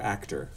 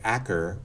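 First: The middle t sound is pronounced. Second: The middle t sound is dropped. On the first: "or actor?" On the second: "will they say acker"

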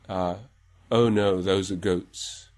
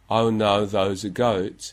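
First: It sounds like mid-to-late twentieth-century standard English. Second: It sounds like English with a Cockney-influenced goat vowel. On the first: "And then 20s to 90s" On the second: "Then the influence of Cockney"

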